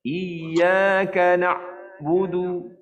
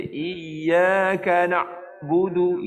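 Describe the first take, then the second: First: Slow chant, the ain in "na'budu" cut off completely; wrong recitation. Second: Slow chant, ain of "na'budu" stopped like a syiddah letter; wrong recitation. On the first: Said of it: "Dia berkata". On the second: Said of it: "itu dah jadi syiddah huruf ain". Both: Shown as a demonstration.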